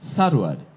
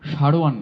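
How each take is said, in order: First: The name begins with a sharp 's' sound. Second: The name begins with a Bengali 'sh' sound. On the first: The speaker calls it right. "আরবি সিন দিয়ে যখন হচ্ছে তখনই গোলাম সারোয়ার" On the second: The speaker calls it wrong. "সারোয়ার নয়"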